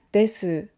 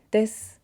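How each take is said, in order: First: "desu" with the final u voiced; the teacher says the wrong way first; full desu. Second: "des" with the u whispered away; clipped natural ending, u voiceless. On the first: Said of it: "instead of saying desu". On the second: Teacher showing a student the natural ending, u voiceless. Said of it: "we say des". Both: Shown as a demonstration.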